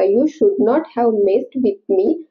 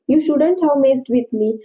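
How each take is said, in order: First: The words should and not are said separately. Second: Should and not merge into one word, shouldn't. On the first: "शुड नॉट ही बोलू शकता" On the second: "शुड नॉटचं संक्षिप्त रूप आहे शुडंट"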